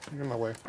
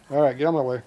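First: Said in the usual way. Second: Louder push-aside command; loud get-out-of-my-way at the dog; telling the dog to move. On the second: Real, not acted. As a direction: shove the dog off, raised voice. Dog blocking the work.

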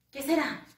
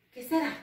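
No difference in how they are said.

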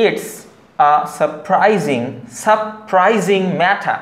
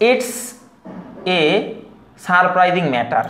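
First: Very slow "surprising" as suh-prai-zing, "matter" as matha; "surprising matter" with first r dropped, z sound, aspirated t; careful correct pronunciation. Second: Separated Bangladeshi English words, "a" as ay, r's sounded; Bangladeshi-style "surprising matter" with full r and plain t; Bangladeshi pronunciation. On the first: Teacher attempting the pure version, slow "surprising matter" without final r. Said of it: "একটু শুদ্ধ করে বলার চেষ্টা করি". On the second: Teacher showing the usual local reading, Bangladeshi English pronunciation. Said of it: "এটা যদি আমরা বলি".

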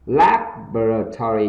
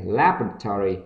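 First: Said in the usual way. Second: LABORATORY said quickly as one run; quick pronunciation. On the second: Shown as a demonstration. Teacher models laboratory for learners, read quickly. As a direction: say "laboratory" faster, syllables run together. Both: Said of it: "đọc nhanh này".

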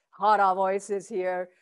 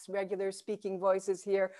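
First: Slow, belly-resonant phrase; hara voice. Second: Said in the usual way. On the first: Shown as a demonstration. Teacher showing where hara voice sits, slow and from the belly. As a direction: drop the sound down into your belly.

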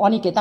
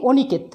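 First: অনিকেত with open "aw" first vowel; natural vowel. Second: অনিকেত with closed "o" first vowel; rejected O form. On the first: Teacher showing spelling matches speech, অনিকেত with open aw. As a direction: say অনিকেত as "aw-niket". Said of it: "আমি উচ্চারণও লিখেছি অনিকেত". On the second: Teacher showing the form to avoid, অনিকেত with closed o. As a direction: say অনিকেত as "o-niket". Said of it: "আমি লিখিনি অনিকেত". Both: Shown as a demonstration.

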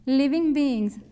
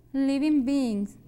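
First: "Living beings" repeated in English, G kept very soft. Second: "living beings" said slowly, each word clear, with the final G kept very soft; soft G in English. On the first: Teacher repeats "Living beings" for the class, soft final G. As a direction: say "Living beings" once more, G barely sounded. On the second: Teacher slowly models "living beings" for Spanish-speaking students, soft G. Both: Shown as a demonstration. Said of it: "que se pongan la G como que muy suave".

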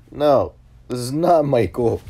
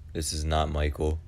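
First: Loud, high and drawn out; hammed-up insistence, raised and slow; exasperated retelling. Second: Said in the usual way. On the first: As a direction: loudly set a wrong caller straight. Retells reply to wrong number.

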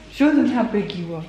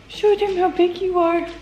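First: Said in the usual way. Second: Cooing at dog. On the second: Real, not acted.

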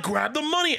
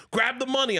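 First: Higher, firm insistence; mock gangster insisting; gangster order repeated. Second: Higher, firm command; mock gangster command; gangster order. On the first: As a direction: repeat it, pushier. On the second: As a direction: bark the order at him. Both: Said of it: "He's like".

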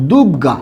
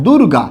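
First: দুর্গা as "dug-ga", r becomes g; everyday pronunciation. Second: দুর্গা as "dur-ga", with the r sounded; as written. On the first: Teacher shows how we say it, as dug-ga. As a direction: double the g in দুর্গা, no r sound. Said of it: "আমরা উচ্চারণ করি কি". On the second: Teacher repeats what was written, sounding dur-ga. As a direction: say the r before g in দুর্গা. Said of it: "কি লিখলাম বলুন তো?". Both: Shown as a demonstration.

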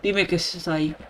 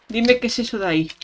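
First: Said in the usual way. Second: Rushed, higher-pitched Dime; fast higher repeat. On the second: Shown as a demonstration. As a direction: rattle it off quickly.

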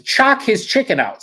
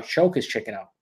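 First: "Chock his chicken out" read as the typo, "Chock" said like "chalk", slow and much higher; misspelling read aloud. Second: Said in the usual way. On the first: Shown as a demonstration. Streamer reads a viewer's typo aloud: slow, higher literal reading. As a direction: sound out "Chock" literally, as the comment spelled it. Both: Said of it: "Sorry, choke his chicken out".

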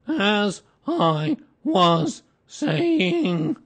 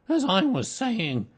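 First: Very slow, booming, word-by-word reproof; loud and stern. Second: Slow, raised, insistent voice; resume firmly and loudly, less drawn out; stern resumption. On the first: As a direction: stretch each word out loudly to silence interrupters. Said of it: "said Eeyore loudly and sternly". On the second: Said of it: "loudly and sternly". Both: A narrator's reading.

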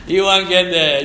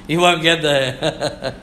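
First: Said in the usual way. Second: Slow, lower, with a laugh in it. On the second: Acted. Preacher to congregation about leaving the road, laughing. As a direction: chuckle it out, slowly.

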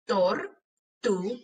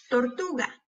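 First: "Tortuga" slowly as tor, tu, ga; broken into syllables. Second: Said in the usual way. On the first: Shown as a demonstration. Teacher helping hear each sound, syllable by syllable. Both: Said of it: "quiero que las quiebres entre sílabas".

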